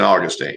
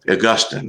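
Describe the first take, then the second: First: It is said like the Florida town's name. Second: It is said the standard Catholic way. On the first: "I guess I'm Southern. Saint Augustine is this town in Florida"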